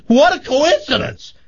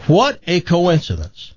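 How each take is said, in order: First: High-pitched mock-delighted exclamation; acted excited amazement. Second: Higher, lightly marvelling; acted mild amazement. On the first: Woman at a bar exclaims at farmer's news, hammed-up amazement. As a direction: shoot way up high with wonder. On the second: Woman at a bar marvels to a stranger, mildly amazed. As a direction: marvel a little at the chance.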